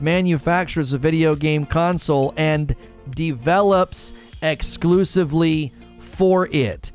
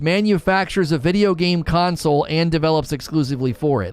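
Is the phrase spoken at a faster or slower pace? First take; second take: slower; faster. First: It is spoken at a slower, deliberate pace. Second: It is spoken at a normal, quicker pace.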